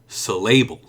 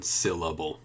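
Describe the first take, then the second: First: The stress is on the middle syllable. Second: The stress is on the first syllable. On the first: The speaker calls it wrong. "If I put the stress in the middle, it might be syllable" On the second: The speaker calls it right. "because it's on the first one"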